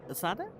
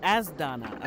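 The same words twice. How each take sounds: First: "Asada" missing the N, asked as a question; mispronounced name. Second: "Asdana" with S-D together and an N; corrected pronunciation. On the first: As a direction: try "Asada" uncertainly, with rising tune. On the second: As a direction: say "Asdana" firmly, falling at the end. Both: Real, not acted. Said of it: "How do you pronounce it?".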